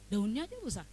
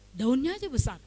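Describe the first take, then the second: First: Said in the usual way. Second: Louder, pressed statement of the complaint; emphatic complaint. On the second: Retold or imitated. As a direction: stress it as a bitter grievance. Emphatic complaint about cabbage.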